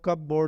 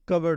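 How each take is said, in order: First: The second part is a full 'board'. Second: The second part is a reduced 'berd'. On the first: The speaker calls it wrong. "अक्सर लोग जो है वो कब बोर्ड कह रहे होते हैं" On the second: The speaker calls it right. "तो ये कबर्ड होता है"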